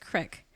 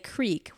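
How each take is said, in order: First: The vowel is a short 'i' sound. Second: The vowel is a long 'ee' sound. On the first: It is an unnamed creek. "it's crick" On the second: It is a named creek. "we tend to say creek"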